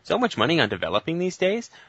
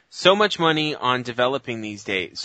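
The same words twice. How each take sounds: First: It is read as a question, rising at the end. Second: It is read as a statement, falling at the end. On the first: It is asked as a question. The speaker calls it right. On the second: It is stated as a fact. The speaker calls it wrong.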